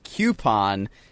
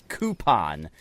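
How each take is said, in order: First: The first syllable sounds like 'cue'. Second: The first syllable sounds like 'coo'. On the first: The speaker calls it wrong. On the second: The speaker calls it right. "the proper pronunciation is coupon, ... coup, like chicken coop"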